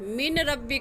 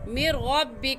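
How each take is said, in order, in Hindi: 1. n की आवाज़ 'rabbi' से पहले बोली जाती है। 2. n दोहरी r की आवाज़ में मिल जाता है। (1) "देखने में है मिन रब्बी का" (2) "और पढ़ेंगे कैसे"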